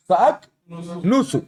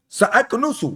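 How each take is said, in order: First: سَأَكْنُسُ said slowly, each vowel drawn out, ending on a clear u; slow, careful teacher model of سَأَكْنُسُ; slow model word. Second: Said in the usual way. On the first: Shown as a demonstration. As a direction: drag out سَأَكْنُسُ sound by sound for the class. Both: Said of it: "سَأَكْنُسُ کہ سَأَكْنِسُ".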